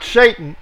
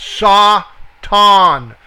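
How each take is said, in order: First: "Satan" with a long AY, as SAY-tun; common English SATAN. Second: "Satan" as sah-TAHN, slowly, syllable by syllable; ah sound in SATAN. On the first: Teacher citing the wrong pronunciation to Bible students, "Satan" as SAY-tun. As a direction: say "Satan" the English way, first syllable like "say". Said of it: "The A in here has an ah sound". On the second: Teacher correcting the pronunciation for students, "Satan" slowly as sah-TAHN. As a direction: draw out both ah vowels in "Satan": saah-taahn. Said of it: "The A in here has an ah sound to it".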